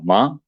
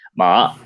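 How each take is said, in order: First: The pitch rises like a question. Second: The pitch dips low, then rises, sounding tense. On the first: It means flax. "Es como preguntando" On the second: It means horse. "tienes que bajar un poco más y subir"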